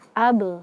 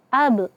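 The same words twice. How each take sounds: First: The final b is released with a clear bounce. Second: The final b is cut off with a glottal stop. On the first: The speaker calls it right. "Sempurnakan pantulannya" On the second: The speaker calls it wrong. "Jangan ab"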